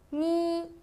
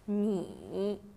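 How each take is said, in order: First: The pitch stays high and level. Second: The pitch dips low, then comes back up.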